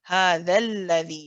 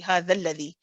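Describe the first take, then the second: First: The lam sound is held briefly before the vowel. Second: The lam sound is rushed through without holding. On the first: The speaker calls it right. "You hold the lam just for a little bit" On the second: The speaker calls it wrong. "don't rush. Remember we said we don't say"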